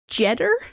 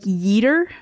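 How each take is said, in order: First: The name begins with a J sound. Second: The name begins with a Y sound. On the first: The speaker calls it right. "the J would be pronounced like a J" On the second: The speaker calls it wrong. "I keep wanting to say that it's like Yeeter"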